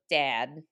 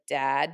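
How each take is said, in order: First: The vowel is a fronted 'eh' sound. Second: The vowel is an open 'ah' sound. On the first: This is how the speaker used to talk. "instead of like dad" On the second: This is how the speaker talks now. "dad is like dad now"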